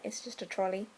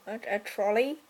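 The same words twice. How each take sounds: First: Said in the usual way. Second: "trolley" with a rising, questioning lift; unsure question. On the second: Real, not acted. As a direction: ask "a trolley?" as if unsure it's the word. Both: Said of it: "I don't think there's any other name".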